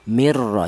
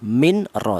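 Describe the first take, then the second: First: The n merges completely into the r. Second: The n is pronounced clearly before the r. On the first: The speaker calls it right. "Yang betul nun mati tadi langsung masuk ke huruf ro" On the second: The speaker calls it wrong. "Atau dibaca idhar juga tidak boleh"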